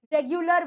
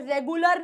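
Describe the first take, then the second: First: रेगुलर with ग्यू, reg-yu-lar; right way. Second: रेगुलर with a plain गु, no y glide; the mistaken रेगुलर, गु without y; wrong way. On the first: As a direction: correct रेगुलर, y glide after ग. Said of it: "रेगुलर बोलते हैं". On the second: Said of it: "रेगुलर नहीं बोलते". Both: Shown as a demonstration.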